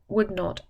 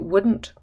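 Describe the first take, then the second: First: Would and not are said as two words. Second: Would and not are squeezed into one word. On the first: The speaker calls it wrong. "it's not natural to say would not" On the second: The speaker calls it right. "so we change it into wouldn't"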